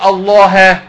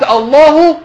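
First: الله as "Allāha"; correct accusative ending. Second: الله as "Allāhu", high pitch; wrong nominative ending. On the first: Teacher showing the reading that is right, correct accusative ending. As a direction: end الله on an open "-ha". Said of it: "يبقى ده صح كده". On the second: Teacher showing how the meaning breaks, wrong nominative ending. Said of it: "يعني ربنا بيخاف من العلماء". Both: Shown as a demonstration.

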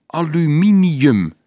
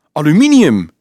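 First: Drawn-out, loud, high-pitched word; slow repeat. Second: High, loud exclamation of recognition; astonished. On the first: Dolf repeats the metal's name for Leonardo, slowly. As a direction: say it slowly and emphatically for someone learning it. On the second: Dolf recognises the metal box, astonished. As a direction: blurt it out loudly in amazement. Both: A narrator's reading.

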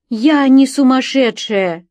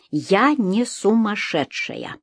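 First: High, loud, slow protest; desperate cry. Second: Slow, measured, word by word; clear, distinct. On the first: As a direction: cry it out to the policeman. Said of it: "закричала я". (отчаянный крик) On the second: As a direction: say it calmly and very clearly. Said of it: "внятно сказала полицейскому". (внятно, раздельно) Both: A narrator's reading.

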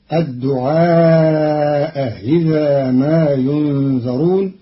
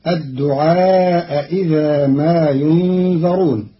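First: The second hamza in الدعاء إذا eased toward i; Qalun softened hamza. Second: الدعاء إذا with both glottal stops clear; Hafs reading with full hamza. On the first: Teacher shows Qalun's eased hamza, pron. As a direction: ease the hamza of إذا, half i. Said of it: "بتسهيل الهمزة الثانية بينها وبين الكسر". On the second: Teacher recites the Hafs form first, pron. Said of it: "قرأ قالون كلمتي الدعاء إذا". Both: Shown as a demonstration.

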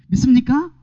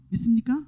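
First: Louder call. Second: Said in the usual way. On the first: Real, not acted. Preacher calling out louder after the crowd stays silent. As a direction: call it out louder, demanding an answer. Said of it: "이렇게 대답이 없어요". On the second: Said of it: "아, 왜 이래요? 이렇게 대답이 없어요".

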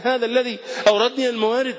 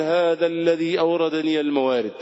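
First: هذا الذي أوردني الموارد lifted high, every word pressed; emphatic repeat. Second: Said in the usual way. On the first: Retold or imitated. Preacher stressing Abu Bakr's words to the congregation, raised pitch. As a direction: repeat the quote higher to drive it home. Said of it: "الصديق يقول على لسانه". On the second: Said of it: "يقول".

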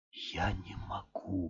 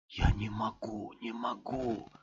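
First: Slow, soft whisper of despair; hushed broken murmur; whispered mumble. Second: Breathless hopeless murmur; hushed repeated plea; despairing whisper. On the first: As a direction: barely breathe it out. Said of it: "бормотал он". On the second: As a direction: whisper it, fading softer. Repeated despair after mumble. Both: A narrator's reading.

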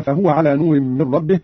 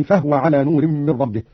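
First: Said in the usual way. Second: "فهو" as fahwa, no u after h; vowelless ha. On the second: Shown as a demonstration. Teacher demonstrates Qalun's reading, "فهو" as fahwa. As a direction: close "فهو" straight from h into w. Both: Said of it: "بإسكان الهاء".

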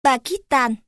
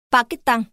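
First: Pakistan said the Northern way, ending in "-tan"; Northern Vietnamese accent. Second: Pakistan said the Southern way, ending in "-tăng"; Southern Vietnamese accent. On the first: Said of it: "Bắc". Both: Shown as a demonstration.

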